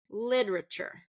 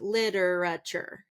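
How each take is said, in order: First: The stress is on the first syllable. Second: The syllables are stressed about equally. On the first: The speaker calls it right. "I want you to stress the first syllable" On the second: The speaker calls it wrong. "pronouncing it with kind of equal stress on a lot of the words"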